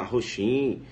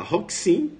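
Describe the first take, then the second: First: "Roxin" low, ho-SHIN with an sh; rival's wrong pronunciation. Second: "Roxin" slow, HOK-sin, rising; your correct pronunciation. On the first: Teacher mimics the rival candidate, wrong pronunciation. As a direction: drag out "Roxin" with X as sh. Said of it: "teu concorrente falar". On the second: Teacher shows students the better version, correct pronunciation. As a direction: lift the end of "Roxin", X as ks. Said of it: "Você fala". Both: Shown as a demonstration.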